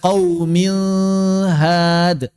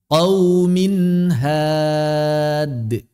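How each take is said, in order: First: The n is blurred toward an l sound. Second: The n is clearly pronounced before had. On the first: The speaker calls it wrong. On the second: The speaker calls it right.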